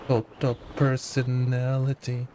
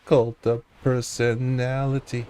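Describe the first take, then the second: No difference in how they are said.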